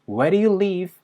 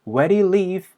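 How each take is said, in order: Both takes have the same delivery.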